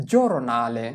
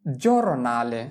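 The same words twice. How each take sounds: The two takes are said the same way.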